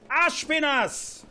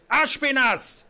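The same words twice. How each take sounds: First: Higher, slow, stretched shout; long drawn-out call. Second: Sharp loud call for a servant. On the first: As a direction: drag the name out, impatient. King calls again, drawn out. (gedehnter, langer Ruf) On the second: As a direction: shout the name across the hall. King calls his servant. (lauter Ruf) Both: Acted.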